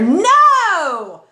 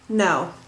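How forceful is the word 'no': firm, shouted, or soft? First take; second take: shouted; soft. First: It is said very loudly, almost shouted. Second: It is said softly with little force. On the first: It grabs a lot of attention. "you could go even crazier" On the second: The speaker probably doesn't really mean it. "It's it's low impact"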